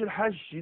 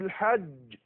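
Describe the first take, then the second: First: The final consonant has a hissing sh quality. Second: The final consonant is a firm, voiced J sound. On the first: The speaker calls it wrong. "ما اقولش الحج دي خالص دخلت الشين" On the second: The speaker calls it right. "فأقول الحج الحج ولا جدال في الحج هكذا"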